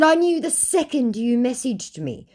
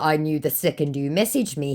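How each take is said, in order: First: Much higher-pitched quoted comeback; high voice for quoting your own reply; high-pitched retort. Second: Said in the usual way. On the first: Retold or imitated. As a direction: deliver the reply high, well above normal. Quoting own taunting reply to scammer.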